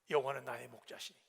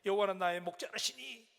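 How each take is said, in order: First: The last word is said without an extra syllable. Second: The last word has an extra 'reu' syllable inserted. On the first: The speaker calls it right. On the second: The speaker calls it wrong.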